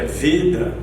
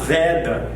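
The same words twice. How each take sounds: First: The first vowel is closed. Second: The first vowel is open. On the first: The speaker calls it right. "é Veda" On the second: The speaker calls it wrong. "outro erro comum que as pessoas costumam cometer é falar Veda aberto"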